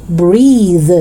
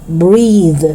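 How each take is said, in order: No difference in how they are said.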